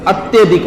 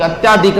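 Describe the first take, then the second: First: Short "tya" in अत्यधिक; अत्यधिक, middle vowel kept short; correct short vowel. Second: Long "tyaa" in अत्याधिक; अत्याधिक with a long aa after ty; wrong long vowel. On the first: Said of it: "अत्यधिक होता है". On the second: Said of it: "अत्याधिक नहीं होता". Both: Shown as a demonstration.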